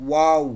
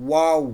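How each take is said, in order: No difference in how they are said.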